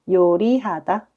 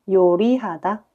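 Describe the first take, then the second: No difference in how they are said.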